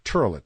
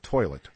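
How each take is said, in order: First: The first vowel sounds like 'er'. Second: The first vowel sounds like 'oy'. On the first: "You say turlet, O Is are usually pronounced like R's" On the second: "not toilet"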